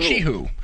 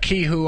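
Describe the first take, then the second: First: The word begins with a ch sound. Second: The word begins with a k sound. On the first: The speaker calls it right. "Pronounced uh, Chihu, like uh, C H" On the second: The speaker calls it wrong. "I used to pronounce that kihu all the time myself, and then somebody uh, corrected me"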